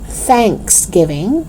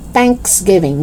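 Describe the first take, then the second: First: Tongue out to start "Thanksgiving"; TH sound. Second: "Thanksgiving" as "tanksgiving"; hard T opening "Thanksgiving". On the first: Teacher correcting learners, "Thanksgiving" with clear TH. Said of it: "No, it's Thanksgiving". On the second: Teacher showing learners the mistake, "Thanksgiving" with hard T. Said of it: "It's not Thanksgiving". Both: Shown as a demonstration.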